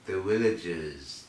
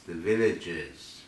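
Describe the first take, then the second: First: "villagers" said with a W sound at the start; V of "villagers" softened into a W; local pronunciation. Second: Said in the usual way. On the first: Retold or imitated. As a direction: say "villagers" as "willagers". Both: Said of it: "as they call them".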